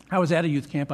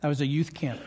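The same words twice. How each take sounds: First: "at" put in with emphasis; self-correction leaning on "at"; emphatic correction. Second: Said in the usual way. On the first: Real, not acted. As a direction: restate it firmly, stressing the word "at". Corrects the missing word, joking.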